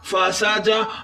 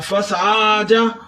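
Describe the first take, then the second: First: The second syllable's vowel is short. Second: The second syllable's vowel is drawn out long. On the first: The speaker calls it right. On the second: The speaker calls it wrong.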